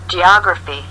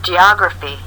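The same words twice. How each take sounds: The two takes are said the same way.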